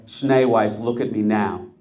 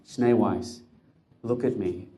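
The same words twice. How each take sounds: First: A blunt, bossy command, a touch louder; commanding order. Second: Gentle plea. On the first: Rebbe ordering the camp officer to look at him, commanding. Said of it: "That was wrong". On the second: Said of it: "Could I rephrase that a little?". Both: Acted.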